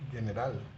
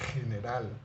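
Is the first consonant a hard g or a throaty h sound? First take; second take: hard g; throaty h. First: It starts with a hard g sound. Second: It starts with a throaty h sound. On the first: The speaker calls it wrong. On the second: The speaker calls it right.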